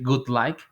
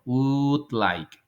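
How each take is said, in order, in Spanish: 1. La primera palabra empieza con un sonido de G dura. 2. La primera palabra empieza con un sonido de U larga. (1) "No hay ninguna G, como por decir" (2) "Hagan un sonido de U alargado"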